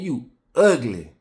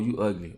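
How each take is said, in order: First: It is said with strong, colorful feeling. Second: It is said plainly, with little feeling. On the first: "When I put character in it" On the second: "I could just say"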